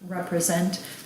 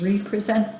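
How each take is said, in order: First: The word is said the usual way. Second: The word is split apart as re-present.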